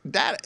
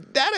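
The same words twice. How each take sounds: First: DATA as DAT-uh; short-a data. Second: DATA as DAY-tuh; long-a data. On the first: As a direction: say data with the vowel of cat. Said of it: "data and data are fine". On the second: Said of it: "you can interchange". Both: Shown as a demonstration.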